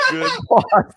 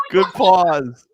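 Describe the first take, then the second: First: Breaking into a laugh mid-phrase; high, laughing repeat of the words. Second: Said in the usual way. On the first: Real, not acted. Cracking up while repeating his joke to his cohost.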